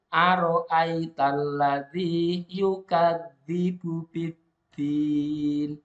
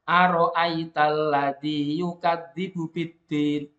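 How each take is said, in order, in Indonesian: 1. Vokal sebelum n terakhir dibaca panjang. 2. Vokal sebelum n terakhir dibaca pendek. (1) "maka panjangnya boleh ditambahi" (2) "Kalau cuma satu alif"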